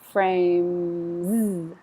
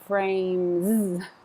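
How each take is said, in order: First: The final z sound is slight and soft. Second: The final z sound is heavy and stressed. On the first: The speaker calls it right. "It's not stressed. It just needs to be very solid" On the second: The speaker calls it wrong. "I don't want frames"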